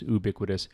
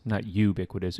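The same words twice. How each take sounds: First: "ubiquitous" said "yoo-BIK-wi-tus", starting with a y sound; right pronunciation. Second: "ubiquitous" said "oo-BIK-wi-tus", wrongly dropping the y sound; wrong pronunciation. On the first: Teacher demonstrating the correct way to say ubiquitous. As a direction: give "ubiquitous" its "you" start. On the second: Teacher demonstrating the wrong way to say ubiquitous. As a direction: say "ubiquitous" with a plain "oo" start. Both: Shown as a demonstration. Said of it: "I pronounced this word as ubiquitous".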